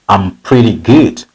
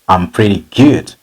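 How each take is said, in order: No difference in how they are said.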